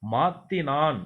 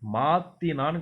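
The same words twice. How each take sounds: No difference in how they are said.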